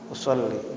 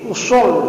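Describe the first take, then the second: First: The word is said softly without vocal emphasis. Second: The word is said forcefully with strong emphasis. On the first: "dengan sederhana, diam saja, tidak begitu menggunakan penekanan suara" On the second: "kalau niat itu jelas sekali"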